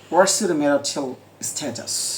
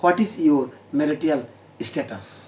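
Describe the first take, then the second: First: 'What is' is contracted into one syllable. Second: 'What is' is said as two full words. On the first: "এরা ওটা নেটিভে বলবে" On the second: "প্রথম জেনারেলটা বলবো"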